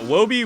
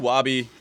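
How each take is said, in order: First: The first vowel sounds like 'oh'. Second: The first vowel sounds like 'ah'. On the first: The speaker calls it right. "I feel like Wobie's a better name" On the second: The speaker calls it wrong. "Wabi just sounds unnatural to me"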